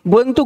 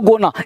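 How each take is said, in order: First: Both words are said fully and separately. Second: The words run together into one short form.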